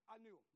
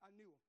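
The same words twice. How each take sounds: The two takes are said the same way.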